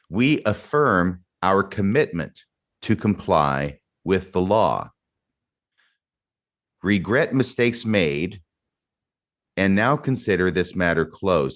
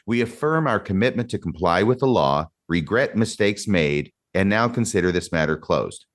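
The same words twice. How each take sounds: First: It is read at a slower pace. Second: It is read at a quicker pace.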